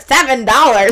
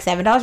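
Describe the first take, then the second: First: Loud, incredulous, edged with laughter; mock outrage. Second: Said in the usual way. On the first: Customer reacting to the nail salon's price, mock outrage. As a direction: exclaim it loudly in comic disbelief.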